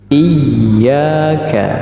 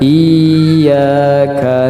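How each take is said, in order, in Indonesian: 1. Bunyi ya dibaca ganda dan pendek. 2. Bunyi ya dibaca panjang. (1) "Tetapi iyyaka" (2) "Kalau itu bacaannya adalah panjang"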